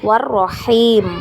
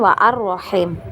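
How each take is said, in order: First: The article's vowel is dropped and the words linked. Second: The article's vowel is pronounced as a separate sound. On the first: The speaker calls it right. "war-rahim ya, seperti itu" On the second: The speaker calls it wrong. "bukan wa ar-rahim"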